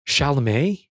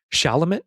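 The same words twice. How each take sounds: First: "Chalamet?" said SHAL-uh-may, asked with a questioning rise; retry "Chalamet?" as SHAL-uh-may, unsure; second guess at the name. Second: "Chalamet." as SHAL-uh-muh, tentative; unsure pronunciation. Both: Shown as a demonstration. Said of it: "I don't know how to say this dude's last name".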